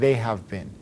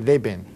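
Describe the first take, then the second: First: Each word is said fully and separately. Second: The words are squeezed even shorter than the contraction. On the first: "Instead of saying" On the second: "cut it down even more"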